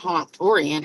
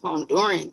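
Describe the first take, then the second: First: The word is said with extra added syllables. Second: The word is said with fewer syllables. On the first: The speaker calls it wrong. "How you just gonna add letters and syllables?" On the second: The speaker calls it right. "It's Honduran chick"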